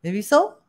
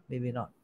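First: Said in the usual way. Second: "maybe not" dropped low and soft; quiet. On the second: Shown as a demonstration. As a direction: let "maybe not" fall away quietly.

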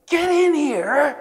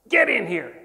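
First: High, loud and slow full yell; bigger retold yell. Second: Loud imitated order, falling at the end; a firm first demand to come inside; retold command. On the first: Teacher repeats his order to the stunned stranger, bellowing. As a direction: stretch the order out like an angry bellow. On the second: Teacher orders the stranger into the classroom, loud.

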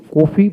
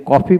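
First: কফি with closed "o", "ko-fi"; rejected pronunciation. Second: কফি with open "o", "kaw-fi"; preferred pronunciation. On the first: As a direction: say কফি starting "koh". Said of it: "কফি বলি না". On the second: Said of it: "যেন কফি বলি". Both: Shown as a demonstration.

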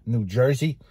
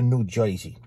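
First: Said in the usual way. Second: "Jersey" as "Joisey", Bronx style; Bronx-accented "New Joisey". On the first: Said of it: "instead of saying New Jersey". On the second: Shown as a demonstration. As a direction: imitate old Bronx speech, "oy" for the "er" in "Jersey". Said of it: "they would say".

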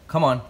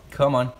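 The two takes are said the same way.

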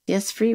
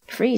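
First: Said in the usual way. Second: Mildly surprised question; a touch of surprise. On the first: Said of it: "returned I". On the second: A narrator's reading. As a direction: echo it back as a puzzled question. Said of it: "looking at me in surprise".

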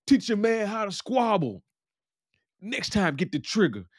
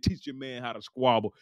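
First: Mock taunting shout. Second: Said in the usual way. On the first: Jerome calls out after beating the guy, taunting shout. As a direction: imitate a fighter calling out a parting jeer.

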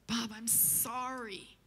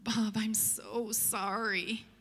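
First: Slow, much softer frail apology; frail phone voice. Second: Slow, soft, frail apology; frail phone voice. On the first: Lynn calls Bob yet again, frail and faint. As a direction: barely voice it, drawn out and weak. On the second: Shaken old woman on the phone to Bob, frail and soft. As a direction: let it creep out weakly, drawn out. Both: Retold or imitated. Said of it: "this frail voice just kinda crawls out of the phone".

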